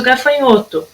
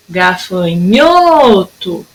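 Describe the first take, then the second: First: Said in the usual way. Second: "Gafanhoto" with NHO stretched long; calling the word. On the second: Shown as a demonstration. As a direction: call "Gafanhoto" slowly, dwelling on NHO. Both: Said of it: "Durou mais o gafanhoto".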